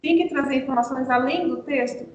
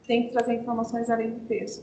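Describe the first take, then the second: First: "além do texto" delivered as a question; rhetorical question. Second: Said in the usual way. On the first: Shown as a demonstration. Teacher quizzing teachers on extra information, rhetorical question on "texto". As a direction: ask "informações além do texto" expecting a yes. Asks, then answers own question.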